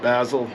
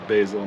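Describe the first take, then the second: First: It is said in the other, non-local way. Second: It is said the local Northern California way. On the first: This is how people elsewhere say it. "not basil" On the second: This is how people say it locally. "Say basil"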